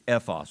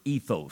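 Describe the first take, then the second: First: The word is pronounced the Greek way. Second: The word is pronounced the English way. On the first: "If you said it in their language" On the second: "We say it in our language"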